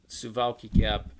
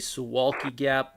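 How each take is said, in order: First: The W in Suwalki sounds like a V. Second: The W in Suwalki sounds like a W. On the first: "W's are pronounced like a V in Polish. So that's why I said" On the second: "like in English, you say Suwalki Gap"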